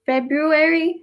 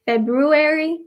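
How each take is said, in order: First: The first r sound is clearly pronounced. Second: The first r sound is clearly pronounced.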